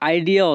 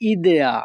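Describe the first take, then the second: First: The word is pronounced the English way, eye-dee-a. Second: The word is pronounced the Italian way, ee-deh-a. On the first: "ইংরেজিতে আমরা আইডিয়া অর্থ ধারণা বুঝি" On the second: "Italian ভাষায় উচ্চারণ করা হয় idea"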